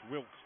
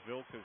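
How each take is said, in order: First: The name begins with an English W sound. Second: The name begins with a V sound. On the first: The speaker calls it wrong. "it looks like the, the English Wilkes" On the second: The speaker calls it right. "I'm pretty sure it is Vilkers, how you say it in Dutch"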